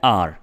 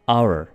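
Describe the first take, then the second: First: It is said as one syllable, like 'ar'. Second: It is said as two syllables, like 'ower'. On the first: The speaker calls it wrong. "Normally लोग बोलते हैं आर, जो कि बिल्कुल गलत pronunciation है" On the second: The speaker calls it right. "आपने इसको क्या बोलना है"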